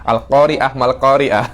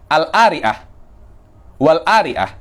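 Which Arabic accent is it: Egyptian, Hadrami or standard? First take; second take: standard; Egyptian. First: The q is said as a standard uvular q. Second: The q is dropped, Egyptian style.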